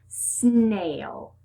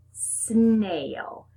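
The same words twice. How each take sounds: The two takes are said the same way.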